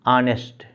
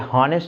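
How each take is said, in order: First: The word begins with a vowel sound. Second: The word begins with an h sound. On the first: The speaker calls it right. "यानी आ वावेल sound हो रहा है" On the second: The speaker calls it wrong. "ये हॉनेस्ट इसका pronunciation नहीं होता"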